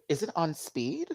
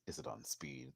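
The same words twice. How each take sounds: First: Said in the usual way. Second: Much lower, softer mumbled repeat; deadpan low. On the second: Pretend. Vlogger repeats her joke deep and soft, then doubts it. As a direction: drop it low and quiet.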